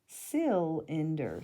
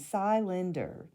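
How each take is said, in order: First: The first vowel is said short, as in 'sit'. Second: The first vowel is said long, as in 'sigh'. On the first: The speaker calls it right. "change this to a closed syllable" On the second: The speaker calls it wrong. "The first one would be an open syllable"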